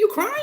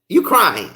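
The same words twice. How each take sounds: First: Squeaky high rising tease; mock question. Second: Said in the usual way. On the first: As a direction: poke fun with a high question. Mocking someone crying.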